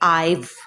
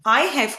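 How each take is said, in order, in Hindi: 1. शब्द मिलकर एक छोटे अक्षर में मिल जाते हैं। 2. दो अलग-अलग पूरे शब्द बोले जाते हैं।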